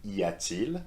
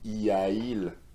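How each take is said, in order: First: A t sound links the two vowels. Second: The two vowels meet with no t sound. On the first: The speaker calls it right. "it is much easier to pronounce y a-t-il" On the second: The speaker calls it wrong. "I need to make an effort here. ... it doesn't sound quite right"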